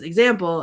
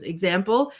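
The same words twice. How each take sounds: First: EXAMPLE with a firm falling tune; answering. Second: EXAMPLE with a rising, questioning tune; mildly puzzled "Example?", turned upward. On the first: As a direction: state "Example" with pitch dropping at the end. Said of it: "Shrek says". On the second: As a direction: ask "Example?" with pitch lifting at the end. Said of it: "Donkey says". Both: Retold or imitated.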